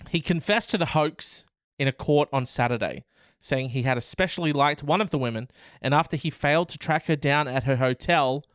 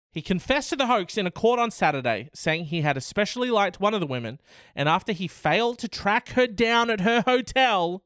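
First: Said in the usual way. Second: Faster, rising reread in disbelief; disbelieving reread. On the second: Acted. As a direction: reread "He confessed to the hoax" quicker and higher, astonished.

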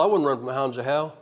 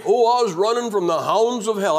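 First: Wasn't stressed and rising in a lower voice. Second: Lightly mocking a dramatic convert, a bit louder; mocking other converts. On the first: Real, not acted. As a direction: set wasn't hard against the quoted claim. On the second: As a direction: parody the overblown testimony cliché. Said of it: "you hear them guys saying".

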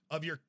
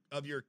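Both takes have the same delivery.

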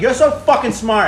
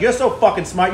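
First: Sarcastic. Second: Said in the usual way. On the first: Retold or imitated. Kid mocks the cop searching the car, slow sarcasm. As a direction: drag out the sarcasm, higher. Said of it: "But I'm like".

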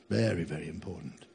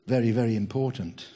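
First: "Very, very important" repeated much softer and lower; murmured repeat, lower and softer; soft echo. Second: Said in the usual way. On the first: Real, not acted. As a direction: let the echo drop away to a hush. Soft echo of previous line.

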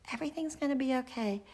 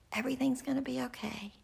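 First: High, fast reassurance; a mother repeating comfort at midday; reassuring again. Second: Put-on a mother whispering comfort to her girls; reassuring whisper. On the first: Retold or imitated. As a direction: tell them lightly once more.

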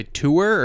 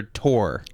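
First: "tour" said TOO-er, drawn out; two-syllable tour. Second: "tour" said as TOR; tour like tore. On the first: Asking which pronunciation they use, oo-sounded "tour". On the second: Asking which pronunciation they use, "tour" like tore. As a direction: say "tour" to rhyme with more. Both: Shown as a demonstration. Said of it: "Do you guys say".

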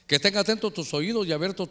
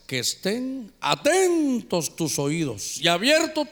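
First: Said in the usual way. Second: Very slow, each word weighed; slow emphatic reading. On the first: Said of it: "déjeme que le lea". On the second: Shown as a demonstration. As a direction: read it slowly to stress it. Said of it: "¿Qué cosa esta?". (lectura lenta y enfática)

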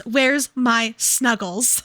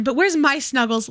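First: Slow, drawn-out plea; drawn-out repeat. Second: Said in the usual way. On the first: Acted. Co-host repeats the character's whiny plea, slowly. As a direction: stretch it out like a pout. Quoting the book line twice.

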